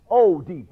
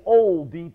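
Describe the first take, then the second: First: O Deep with a plain long O, no L; Fred's pronunciation. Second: Said in the usual way. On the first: Shown as a demonstration. Retelling how Fred said "O Deep", long oh and no L. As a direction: say "O Deep" as oh-deep, drawn out. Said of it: "like O H Deep". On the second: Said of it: "he said O Deep".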